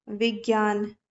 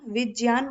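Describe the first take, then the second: First: विज्ञान said as vigyan; विज्ञान with the hard g sound as people say it; common wrong way. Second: विज्ञान said as vijyan with j; विज्ञान with j then y, not g; correct pronunciation. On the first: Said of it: "जैसे विज्ञान बोल देते हैं". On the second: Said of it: "तो इसको विज्ञान नहीं बोला जाता". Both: Shown as a demonstration.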